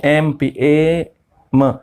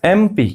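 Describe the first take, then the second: First: एमपी said slowly, then split into ए and म; slow sound breakdown. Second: Said in the usual way. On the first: Shown as a demonstration. Teacher telling students to listen, spelling out ए म slowly. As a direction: draw out ए म syllable by syllable. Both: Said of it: "देखिए ध्यान से सुनिए".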